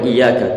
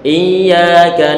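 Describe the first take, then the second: First: The y sound is short and single. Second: The y sound is held and doubled. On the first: The speaker calls it wrong. "dibaca iyyaka tanpa disertai dengan tasydid. Enggak boleh iyyaka" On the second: The speaker calls it right. "tapi perlu untuk ditasydidkan"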